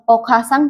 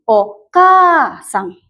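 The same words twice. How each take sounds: First: The vowel after the k is short. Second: The vowel after the k is long. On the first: The speaker calls it wrong. "bukan okasang" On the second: The speaker calls it right. "tapi okasang. K panjang ya"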